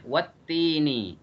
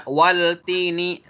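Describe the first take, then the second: First: "wat-tini" slowly, doubled t and no L; correct assimilated reading. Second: "wal-tini" louder, with a clear L; wrong reading, L pronounced. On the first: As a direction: go straight into held t in "wat-tini". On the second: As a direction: sound the L before t in "wal-tini". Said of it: "Nggak boleh dibaca". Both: Shown as a demonstration.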